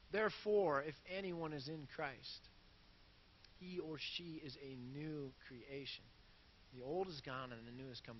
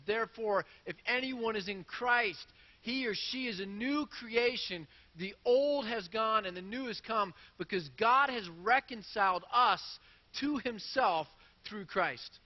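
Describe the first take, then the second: First: Soft scripture reading. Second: Bold scripture reading. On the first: Pastor rereads the verse gently to his listeners, soft and low. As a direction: reread the verse much softer and lower, intimate. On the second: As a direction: declare each line of the verse with force. Pastor reads Corinthians verse aloud. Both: Shown as a demonstration.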